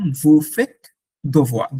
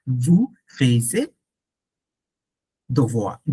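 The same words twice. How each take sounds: First: Vous faites devoir said slowly as "vu fet dovwa"; corrected sentence. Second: Vous faisiez devoir said slowly as a planted error; deliberate mistake. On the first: Teacher telling the sister to do homework, slow and clear. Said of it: "হ্যাঁ, vous faites". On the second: Teacher planting a mistake for students to catch, slow. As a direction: drag out vous faisiez devoir, testing the class. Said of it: "এখানে একটা ভুল আছে না?". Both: Shown as a demonstration.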